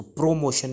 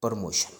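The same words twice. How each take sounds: First: प्रमोशन with a full "pro" start; wrong pronunciation. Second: प्रमोशन starting with "per"; correct pronunciation. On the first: Teacher telling learners not to say it so, wrong pronunciation. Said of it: "नहीं बोलेंगे". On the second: Teacher giving the right form once more, correct pronunciation. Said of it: "इसको पढ़ेंगे". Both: Shown as a demonstration.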